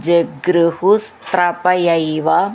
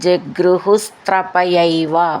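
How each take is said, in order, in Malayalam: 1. മൂന്നു വാക്കുകളും ചേർത്ത് ഒന്നാക്കിയാണ് പറയുന്നത്. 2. മൂന്നു വാക്കുകളും ചേർത്ത് ഒന്നാക്കിയാണ് പറയുന്നത്.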